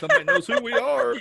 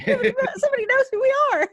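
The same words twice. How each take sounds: First: High, thrilled and giddy; excited disbelief. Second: Laughing through it, pitched high; laughing giddy. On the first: Host echoing their first recognition, giddy and high. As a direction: squeal it like fans finally found you. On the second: Cohost laughing while echoing the moment, high. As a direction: giggle it out in delight. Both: Retold or imitated.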